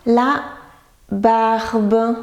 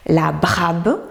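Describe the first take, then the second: First: BARBE drawn out, R before the final B; correct word. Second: BRABE with R moved after the first B; inverted letters. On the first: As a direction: say barbe slowly and clearly. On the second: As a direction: misread barbe as "brabe". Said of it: "Il veille aussi aux inversions". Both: Shown as a demonstration.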